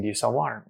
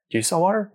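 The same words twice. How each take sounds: First: Said in the usual way. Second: Higher and louder, pressing the vendor; more insistent asking. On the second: Retold or imitated. At a vendor asking for water again, higher and more insistent. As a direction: ask again with rising urgency. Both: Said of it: "I'm asking".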